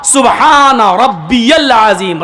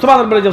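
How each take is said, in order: First: It is said slowly, each word clear. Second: It is said hurriedly, words run together.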